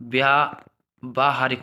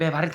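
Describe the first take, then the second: First: The first vowel after 'vy' is long. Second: The first vowel after 'vy' is short. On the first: The speaker calls it right. "व्यावहारिक होता है" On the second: The speaker calls it wrong. "भाई व्यवहारिक थोड़ी कोई शब्द होता है"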